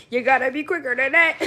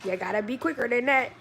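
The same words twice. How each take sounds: First: Louder, laughing through it; laughing taunt. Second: Said in the usual way. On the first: Acted. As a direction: tease them while cracking up.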